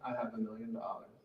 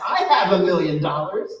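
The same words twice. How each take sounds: First: It is said flatly, without feeling. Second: It is said with joyful, passionate conviction. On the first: The words are merely repeated without belief. The speaker calls it wrong. "If I just say" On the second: The speaker truly feels and believes it. The speaker calls it right. "with absolute conviction and joy and passion"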